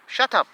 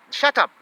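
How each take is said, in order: Both takes have the same delivery.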